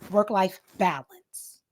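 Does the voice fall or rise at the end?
fall. The voice falls at the end of the phrase. The speaker calls it right. "So practice coming down"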